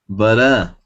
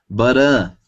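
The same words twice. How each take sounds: The two takes are said the same way.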